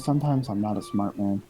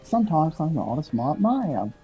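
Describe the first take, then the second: First: It is said in a plain voice. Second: It is said with a Texas drawl.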